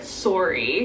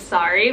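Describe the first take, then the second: First: The first vowel sounds like 'oh', Canadian style. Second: The first vowel sounds like 'ah', American style. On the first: "she says like sorry ... ah versus oh" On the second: "when I say sorry, I just say sorry ... It's like ah versus oh"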